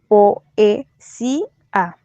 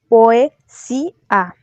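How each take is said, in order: First: The o and e form separate syllables. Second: The o and e blend into one syllable. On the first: This is the ordinary everyday pronunciation. "como sería lo normal" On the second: The line keeps its count of eight syllables. "una sinéresis en el último"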